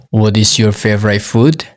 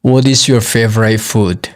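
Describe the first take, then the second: No difference in how they are said.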